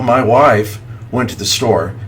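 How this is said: The voice sounds strong and confident. The speaker calls it right. "Say it with confidence"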